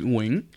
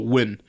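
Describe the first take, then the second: First: The name has its Vietnamese pronunciation. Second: The name is said as one English syllable. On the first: "how you say it in Vietnamese is Nguyen" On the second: "when just in English, we just go win"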